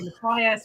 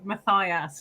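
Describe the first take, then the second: First: The middle syllable does not sound like thigh. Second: The middle syllable sounds like the word thigh. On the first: The speaker calls it wrong. "everyone wants to say Matthias" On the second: The speaker calls it right. "slap my thigh and then slap my ass as I say Matthias"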